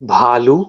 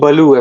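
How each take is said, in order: First: It is said with the original Hindi pronunciation. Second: It is said with an anglicized English pronunciation.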